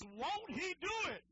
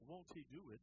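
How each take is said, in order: First: It is said emphatically, with strong conviction. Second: It is said flatly, without much conviction. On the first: The speaker calls it right. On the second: The speaker calls it wrong. "It's not"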